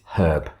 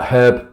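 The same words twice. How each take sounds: First: The word starts with a clear H sound. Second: The word starts with a vowel, no H sound. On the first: The speaker calls it right. "no, it's herb" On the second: The speaker calls it wrong. "French will say herb"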